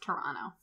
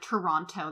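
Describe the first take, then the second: First: The name is said loosely with reduced sounds. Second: Every sound of the name is carefully pronounced. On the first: The speaker calls it right. "It's Toronto" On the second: The speaker calls it wrong. "That's too much. That's too much effort"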